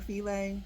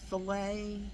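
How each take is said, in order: First: It is said like the gumbo word filet. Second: It is said like the fish word fillet. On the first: "Sometimes I say filet like gumbo filet" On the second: "Filet like a fish fillet"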